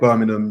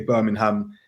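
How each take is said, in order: First: It is said with a British pronunciation. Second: It is said with an American pronunciation. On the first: This is how people in the UK say it. "we would say" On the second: This is how people in the States say it. "you would say"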